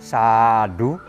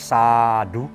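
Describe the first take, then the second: First: The first syllable's vowel is long and prominent. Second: The first syllable's vowel is long and prominent.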